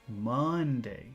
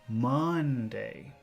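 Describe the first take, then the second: Both takes have the same delivery.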